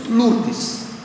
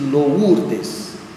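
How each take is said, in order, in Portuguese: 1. A primeira vogal é um som 'u' simples. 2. A primeira vogal é um som 'ou' deslizante. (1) "dizemos Lourdes" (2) "Você já ouviu alguém chamar alguma Lourdes de Lourdes? Não"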